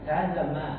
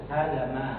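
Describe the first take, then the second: First: The vowel in 'ma' is kept short. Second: The same.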